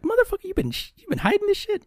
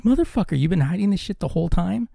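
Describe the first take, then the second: First: Much higher squeal of fake indignation; shrieking mock outrage. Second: Higher-pitched mock outrage at his brother; excited outburst. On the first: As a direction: squeak it out like a scandalized kid. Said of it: "I'm like". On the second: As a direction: pretend indignation, pitched up. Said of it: "And I was like".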